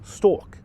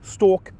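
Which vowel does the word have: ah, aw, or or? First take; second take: or; or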